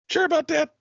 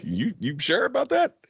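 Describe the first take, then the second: First: Very high, squeaky-doubt repeat; exaggerated doubtful question. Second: Higher, rising doubtful query; mock doubtful question. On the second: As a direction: question their booking with a rising tune. Retold doubtful question to bookers.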